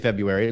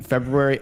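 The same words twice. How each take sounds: First: The R after the B is dropped. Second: The R after the B is clearly pronounced. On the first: "I used to say February like everybody else" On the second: "I gotta pronounce it"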